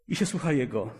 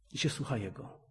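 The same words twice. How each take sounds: First: Said in the usual way. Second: Dropped to a soft, reflective hush; softly spoken. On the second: Shown as a demonstration. Preacher to congregation, quietly repeating the phrase. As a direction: say it quietly, as if savouring it.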